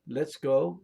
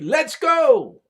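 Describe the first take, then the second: First: It is said flatly, without lively inflection. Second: It is said excitedly, with strong inflection. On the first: It is not an interjection. The speaker calls it wrong. "You don't say" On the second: It is an exclamation. The speaker calls it right. "You say"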